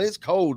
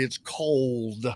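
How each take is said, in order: First: Cold is said so it sounds like code. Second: Cold is said carefully with a clear l. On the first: "What's the code there, Jimmy?" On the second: "Oh, I'm sorry"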